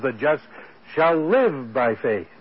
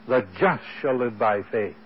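First: The word live carries the main stress. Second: The word just carries the main stress. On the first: The just will truly live by faith. "he puts the emphasis on the life" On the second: It is the just who will live by faith. "he puts the emphasis on the just"

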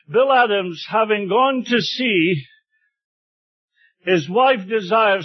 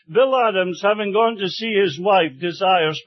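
First: There is a break right after the word sea. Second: There is a break right after the word wife. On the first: The man went to sea and his wife requests prayers. The speaker calls it right. "the message actually was this" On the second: The man went to visit his wife and requests prayers. The speaker calls it wrong. "he read it this way"

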